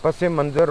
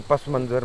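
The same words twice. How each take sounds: First: پس منظر said with a linking e, pas-e-manzar; linked pronunciation. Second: پس منظر said as pas-manzar, no linking vowel; unlinked pronunciation. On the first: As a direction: join پس منظر with an -e- after pas. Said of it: "پس منظر اور پس منظر میں فرق". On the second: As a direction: say پس منظر without an e between the words. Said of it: "پس منظر ہوتا ہے". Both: Shown as a demonstration.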